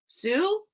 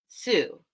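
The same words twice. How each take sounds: First: SUE rising high into a question; questioning guess. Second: SUE falling, at an everyday pitch; settled guess. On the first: Host asking viewers who sells seashells, questioning. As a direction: try "Sue" as an uncertain question, pitch lifting. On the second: Host answering the tongue-twister question, settled. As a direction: say "Sue" as a statement, dropping at the end. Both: Real, not acted.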